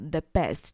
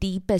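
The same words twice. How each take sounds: First: The word 'the' is said plainly, unstressed. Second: The word 'the' is said as an emphatic 'thee'. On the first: It is simply the best. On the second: It is the best, with nothing else equal.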